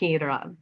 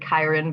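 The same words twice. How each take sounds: First: The name has the original Greek pronunciation. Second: The name has a simplified English pronunciation. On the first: "the Greek pronunciation is Chiron" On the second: "we pronounce it Chiron because that is just much simpler"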